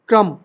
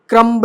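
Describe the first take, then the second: First: No b sound is heard after the m. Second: A b sound is heard after the m. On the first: The speaker calls it right. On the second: The speaker calls it wrong.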